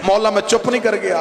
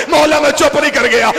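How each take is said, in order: First: Said in the usual way. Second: Refrain cried out high and loud; full-force preaching cry. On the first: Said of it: "refrain before it escalates". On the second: Acted. Zakir crying Abbas's refrain to the mourners, full force. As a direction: hurl the refrain at the crowd. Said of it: "refrain at the climax".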